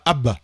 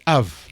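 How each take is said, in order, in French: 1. Le mot finit par un son b. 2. Le mot finit par un son v. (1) "On dit pas a- a- Ab" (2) "on dit Av"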